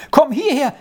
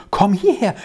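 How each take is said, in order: First: Higher, more excited call; the second call, rising in excitement; calling back. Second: A mildly raised call; a gentle first call across the room; calling back. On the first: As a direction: call again, more thrilled. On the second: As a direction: call him over with light eagerness. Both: A narrator's reading. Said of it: "rief zurück".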